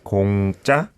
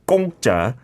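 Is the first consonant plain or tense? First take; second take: plain; tense. First: The first consonant is plain. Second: The first consonant is tense. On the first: The speaker calls it right. "the first 공 is not a 상기역, so it's just 공짜" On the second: The speaker calls it wrong. "I think I made the mistake in the opening as well"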